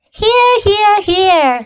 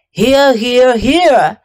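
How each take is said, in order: First: Much higher goose voice saying each "here"; a goose honking "here" three times; shrill goose. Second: Honking gander voice saying each "here"; a gander who can't stop repeating "here". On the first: Goose answers roll call. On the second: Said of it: "You sound like three ganders". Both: Acted.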